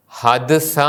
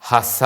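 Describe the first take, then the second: First: ഹദ്സ with both letters sounded; wrong reading. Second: ഹസ merged; merged sound in ഹസ; correct reading. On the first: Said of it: "എന്നല്ല ഉച്ചരിക്കുന്നത്". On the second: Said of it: "എന്നല്ല". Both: Shown as a demonstration.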